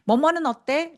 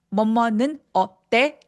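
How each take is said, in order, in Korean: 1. 이 구절은 하나의 덩어리로 매끄럽게 흘러요. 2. 이 구절은 뚝뚝 끊어진 조각으로 나뉘어요. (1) "덩어리지게 들려야 되는데" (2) "이렇게 뚝뚝 끊어지는 느낌"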